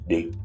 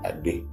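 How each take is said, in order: First: The word starts without an 'a' vowel sound. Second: The word starts with an 'a' vowel sound. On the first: "on peut enlever le son A du début" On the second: "On dit Adé"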